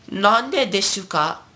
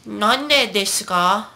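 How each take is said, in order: First: High, slow "desu" as de-su; full u. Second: High, slow "desu ka" as des-ka; Chiyo-chan. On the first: Teacher shows what Chiyo-chan wouldn't say, de-su. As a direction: voice the u in "Nande desu ka". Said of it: "Chiyo-chan would not say". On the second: Teacher quotes the anime line, high des-ka. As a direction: drop the u in "desu", pitched up like an anime girl. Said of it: "She would say". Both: Acted.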